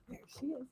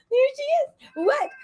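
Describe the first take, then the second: First: Said in the usual way. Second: Much higher, sing-song greeting to a pet; delighted pet greeting, high and bright; cooing to the dog. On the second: Real, not acted. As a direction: coo it like you just spotted your dog.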